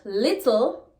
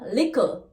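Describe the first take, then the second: First: It is said in standard English. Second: It is said in Jamaican patois.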